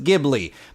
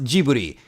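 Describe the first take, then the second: First: The word is said with a European pronunciation. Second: The word is said with a Japanese pronunciation. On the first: "over there it is pronounced Ghibli" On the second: "in Japan, the famous studio known for Totoro is pronounced Ghibli"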